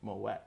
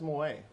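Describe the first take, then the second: First: The final t sound is clearly pronounced. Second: The final t sound is left silent. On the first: The speaker calls it right. "Hard tea" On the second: The speaker calls it wrong. "I don't know why everyone says Moët"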